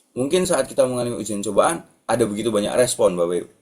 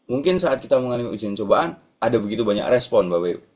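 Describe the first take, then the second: The two takes are said the same way.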